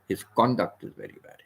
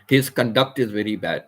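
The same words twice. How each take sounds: First: The stress is on the first syllable. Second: The stress is on the second syllable. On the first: The speaker calls it right. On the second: The speaker calls it wrong. "You cannot say"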